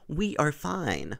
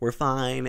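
First: The words 'we are' are said in full. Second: The words 'we are' are contracted together. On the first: It sounds stiff and overly formal. The speaker calls it wrong. "he doesn't use any contractions. It's always like" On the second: It sounds casual and natural. The speaker calls it right. "he never says, like"

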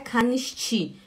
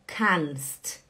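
First: Extra vowels are inserted and it ends in a vowel. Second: It is one syllable ending in a consonant cluster. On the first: The speaker calls it wrong. "não é canisti. Não fala canisti" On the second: The speaker calls it right. "É canst"

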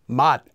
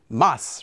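First: The word ends with a t sound. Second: The word ends with an s sound. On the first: The speaker calls it right. "This word is actually pronounced as mat" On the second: The speaker calls it wrong. "Some people might think it would be pronounced as mas"

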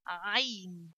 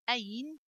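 First: It starts with a tight, deep throat sound. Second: It starts with a light glottal catch. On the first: The speaker calls it right. "Say Ayn" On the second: The speaker calls it wrong. "Don't say Ayn"

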